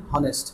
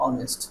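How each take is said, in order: First: "হনেস্ট" with an audible H at the start; wrongly sounded H. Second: "অনেস্ট" starting straight on the open O vowel; silent H. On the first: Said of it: "হনেস্ট হবে না". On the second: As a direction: drop the H, begin "অনেস্ট" with অ. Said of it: "অ sound". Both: Shown as a demonstration.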